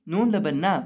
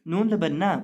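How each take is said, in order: Both takes have the same delivery.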